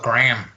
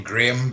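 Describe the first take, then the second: First: Graham squashed to one syllable, "Gram"; American pronunciation. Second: Graham in two syllables, "GRAY-um"; British pronunciation. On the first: Host complaining how people say the name, Graham as "Gram". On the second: Host showing the name as written, Graham as "GRAY-um". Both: Shown as a demonstration. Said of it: "but they call it Graham".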